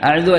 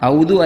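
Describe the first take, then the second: First: It begins with 'a-a' and no u sound. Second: It begins with a single 'au' diphthong. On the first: "അഅദു അഅദു അല്ല" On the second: "ഔ അല്ല അഉ ആണ്, ഔദു അല്ല"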